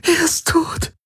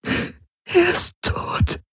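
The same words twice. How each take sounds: First: High, sobbing wail. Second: Slow, breathy high whisper, nearly gone; sobbed whisper. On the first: Ylana sobs to Garlan that he is dead. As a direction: let the grief crack through, high. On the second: Ylana breaks down against Garlan, whispering. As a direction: let the repeat collapse into a whisper. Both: Acted. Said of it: "schluchzte Ylana".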